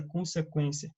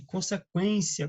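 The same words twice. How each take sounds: First: Said in the usual way. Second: "Consequência" said slowly and distinctly; slow careful pronunciation. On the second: Shown as a demonstration. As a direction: draw out "Consequência" syllable by syllable. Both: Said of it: "Perceba que a pronúncia não mudou?".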